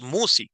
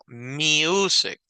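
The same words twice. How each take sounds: First: The u is said as a short vowel. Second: The u is said as a long vowel. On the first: The speaker calls it wrong. "No es music" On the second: The speaker calls it right. "Ese U es característica de una U larga"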